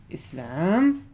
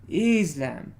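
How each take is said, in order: First: "Islam" with a loud, rising "lam"; "is-LAM", weight on the last syllable; second-syllable stress. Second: "Islam" with a loud, long "IZ" and falling "lam"; "IZ-lam", weight on the first syllable; first-syllable stress. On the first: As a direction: keep "Is" short and push "lam" up in "Islam". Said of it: "there are two ways to pronounce this". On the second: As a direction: hit the start of "Islam" and let the end fall. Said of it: "Or you can go". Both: Shown as a demonstration.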